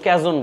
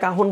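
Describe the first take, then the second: First: The middle consonant is a j sound. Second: The middle consonant is an h sound. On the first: Some people say it this way. "কেউ ক্যাজন বলে" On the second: This is the usual Bangla pronunciation. "উচ্চারণ বাংলায় কাহন বলে"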